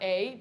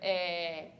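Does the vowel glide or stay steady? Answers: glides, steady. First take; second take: glides; steady. First: The vowel glides into a second vowel sound. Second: The vowel stays on one steady sound. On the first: The speaker calls it wrong. "So not a" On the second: The speaker calls it right. "but a"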